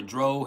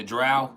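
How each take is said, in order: First: Drow said with a long "oh" vowel, like "droh"; Drow rhyming with snow. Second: Drow said with an "ow" vowel, like "drao"; Drow rhyming with cow. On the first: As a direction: say Drow to rhyme with "go". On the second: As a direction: say Drow to rhyme with "now". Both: Shown as a demonstration. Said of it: "how they pronounce it".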